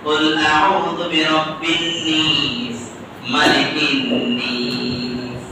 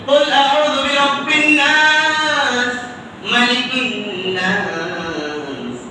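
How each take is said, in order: First: The last word has an 'i' vowel. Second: The last word has an open 'a' vowel. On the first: This is another regional reading. "আরেকটি আঞ্চলিক ভাষায়" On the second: This is the common reading. "আমরা পড়ি"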